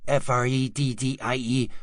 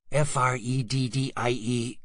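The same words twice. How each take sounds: The two takes are said the same way.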